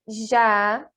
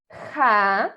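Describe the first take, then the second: First: Each syllable starts with a buzzing zh sound. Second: Each syllable starts with a raspy throat sound. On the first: This is how the syllables sound in Portuguese. "Em português, por exemplo, temos é a família do J, que seria pronunciada assim" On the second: This is how the syllables sound in Spanish. "o som que devemos pronunciar todas as vezes que virmos a letra J seria como se fosse um R"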